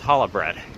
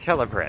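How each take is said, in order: First: Challah begins with an h sound. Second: Challah begins with a ch sound. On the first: The speaker calls it right. "It's pronounced challah bread. ... C H ... makes a huh sound" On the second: The speaker calls it wrong. "it's not pronounced challah bread"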